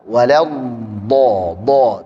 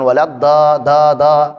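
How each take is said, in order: First: The consonant after wala sounds heavy and thick. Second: The consonant after wala sounds light and thin. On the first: The speaker calls it right. "sehingga dibaca dengan tebal" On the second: The speaker calls it wrong.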